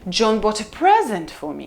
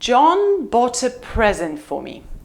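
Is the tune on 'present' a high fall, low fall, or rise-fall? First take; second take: rise-fall; low fall. First: The pitch rises then falls on 'present'. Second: The pitch falls low on 'present'. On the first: "Now let's try rise fall" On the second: "It's a low fall"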